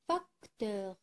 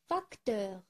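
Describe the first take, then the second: First: "facteur" with a gap after fac; split into syllables. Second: Said in the usual way. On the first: Shown as a demonstration. Teacher helping pupils find a sound, "facteur" syllable by syllable. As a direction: separate "facteur" into fac, teur. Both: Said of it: "Je cherche où se trouve le son".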